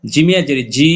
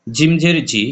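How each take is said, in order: First: Recited spelling with a long, held জি; long madd vowel. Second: Final জি kept short and quick; recited spelling with a short জি; short vowel. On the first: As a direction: stretch the vowel of জি. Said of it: "এক লিপ টেনে পড়তে হবে". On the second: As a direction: say জি briefly, without stretching it. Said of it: "হরকতের উচ্চারণ তাড়াতাড়ি পড়তে হবে". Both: Shown as a demonstration.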